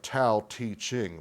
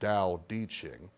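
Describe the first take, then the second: First: The middle word starts with a t sound. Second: The middle word starts with a d sound. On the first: The speaker calls it wrong. "It looks like Tao Te Ching" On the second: The speaker calls it right. "but it's pronounced Tao De Ching"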